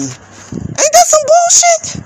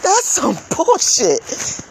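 First: High, slow mock-disbelief question; incredulous squeal. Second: Slow, softer answer through a laugh; laughing disgust. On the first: Ranting to viewers about veterans, a high incredulous squeal. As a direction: squeak it out, outraged and sarcastic. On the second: Answering her own question to viewers, slow bitter laugh. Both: Real, not acted.

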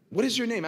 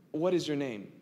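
First: Higher and louder, insistent; God demanding an answer; pressing question. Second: Said in the usual way. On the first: Acted. God's question repeated, pressed.

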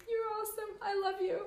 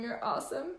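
First: High, soft, choked-up voice; small, high, loving reply; tearful affection. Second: Said in the usual way. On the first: Real, not acted. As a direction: squeak it out tenderly through happy tears.

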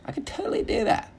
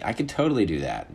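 First: Very high squeaky put-on voice; squeaky boast. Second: Said in the usual way. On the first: Comic bragging he could identify meat cuts, high squeaky voice. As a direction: shoot up into comic falsetto.

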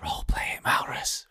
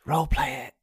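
First: Hushed urging whisper. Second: Said in the usual way. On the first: Real, not acted. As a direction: whisper it so others miss it. Urging a player in secret.

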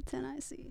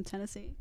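First: "Tennessee" split up like "ten I see"; punning pronunciation. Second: Said in the usual way. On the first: Shown as a demonstration. Telling friends a pun joke, "Tennessee" as "ten I see". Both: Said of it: "I have a joke".

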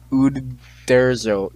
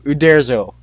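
First: Uderzo drawn out very slowly, syllable by syllable; sounding out French name. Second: Uderzo said in one quicker, joined-up go; French name said whole. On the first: Reader tackles a French artist's name, Uderzo sounded out slowly. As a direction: feel your way through Uderzo, stretching "U-der-zo". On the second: Reader has worked out the French name, Uderzo said confidently whole. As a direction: say Uderzo smoothly as one word, more firmly. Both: Real, not acted. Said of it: "it's French, so give me".

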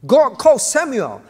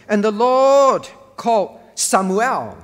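First: "God called Samuel" louder, "called" hit hard; stress on God. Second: "Lord" leaned on, slow and loud; stress on the Lord. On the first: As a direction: drive the point home, punching "called". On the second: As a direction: read it slow, pressing on "Lord". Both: Shown as a demonstration. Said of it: "the emphasis is on the Lord".

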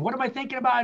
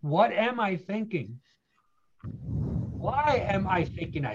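First: Pitched up, racing self-questioning; anxious mental scramble; frantic overthinking. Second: Slow, measured self-inquiry; steady, unhurried reflection; calm deliberate questioning. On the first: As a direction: spin your wheels trying to outthink it. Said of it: "No, here's the key". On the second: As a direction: stop and ask it slowly. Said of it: "here's the key". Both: Shown as a demonstration.

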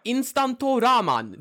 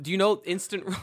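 First: Instanto ramen, slow, much higher and louder, as if exotic; mock grand pronunciation. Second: Said in the usual way. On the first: Shown as a demonstration. Joking to his co-host about a traditional dish: Instanto ramen, slow, high and loud. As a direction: drawl out Instanto ramen like a fancy Chinese dish. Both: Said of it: "let me see if I get the pronou-, pronunciation right".

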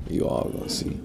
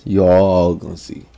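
First: Breathy whispered vow. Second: Said in the usual way. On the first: Real, not acted. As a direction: whisper it like a promise to yourself. Vowing to prove friends wrong.

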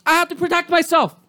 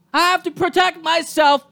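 First: Said in the usual way. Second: Defending kicking the dog, shouted. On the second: Real, not acted. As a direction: hammer home the word protect. Repeated louder, shout.

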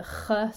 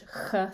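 First: "ch" scraped far back in the throat; Swiss German ch. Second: "ch" as the Scottish fricative, less far back. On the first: Teacher showing the Swiss German sound, throaty ch. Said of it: "It's a little further back". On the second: Teacher contrasting with Swiss German, Scottish ch. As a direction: keep the "ch" a little forward of the throat. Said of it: "the Scottish ch sound". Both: Shown as a demonstration.

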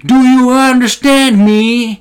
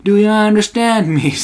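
First: Much higher, louder, very slow English demand; mock angry customer. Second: Higher, slow English repeat; milder mock customer. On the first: Smoker yelling at foreign cashier, high loud mock. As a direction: bark it slowly at the cashier. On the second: Smoker repeating question to cashier, higher slow mock. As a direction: repeat the demand a bit less loudly. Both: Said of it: "alkoi sit jotain heittää".

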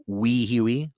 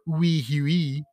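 First: Said in the usual way. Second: Drawn-out, higher mock French accent. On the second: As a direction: say it slowly like a Frenchman. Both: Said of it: "as the Frenchmen like to point out".

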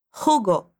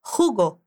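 First: Jugo again, J scraped from the throat; throaty J. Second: Jugo with a throat J, like hugo; throaty J. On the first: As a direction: model Jugo for repeating. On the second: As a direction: rasp the J of Jugo. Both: Shown as a demonstration. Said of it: "Lembra do som do J na garganta?".

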